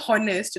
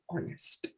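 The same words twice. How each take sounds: First: The opening h sound is pronounced. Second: The opening h sound is silent. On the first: The speaker calls it wrong. "that will never be honest" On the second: The speaker calls it right. "it will always be honest. What is silent will remain silent"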